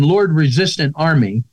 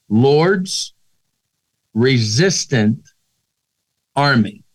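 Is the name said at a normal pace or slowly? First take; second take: normal; slowly. First: The name is said at a normal pace. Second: The name is said slowly, word by word.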